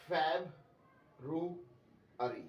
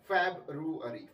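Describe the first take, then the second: First: February said very slowly, Feb-ru-ary, every letter sounded; correct, very slow. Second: February said as Feb-ree, dropping the u; wrong pronunciation. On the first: Teacher slowly modelling February for students. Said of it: "इसको बोलना है February". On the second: Teacher showing students the wrong dropped-letter version. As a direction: skip the ru in February. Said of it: "February नहीं बोलना इसको". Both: Shown as a demonstration.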